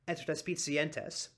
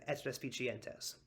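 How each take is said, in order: First: It is said with a northern Italian ts sound. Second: It is said with a Tuscan ch sound.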